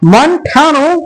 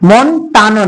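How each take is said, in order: First: The t sound is aspirated, with a breath. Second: The t sound is plain, without a breath. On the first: The speaker calls it right. "আর টকে ঠ বলে।" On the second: The speaker calls it wrong. "মন টানো না"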